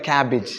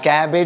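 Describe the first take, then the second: First: The last syllable has a short 'ih' vowel. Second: The last syllable has an 'ay' vowel. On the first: The speaker calls it right. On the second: The speaker calls it wrong.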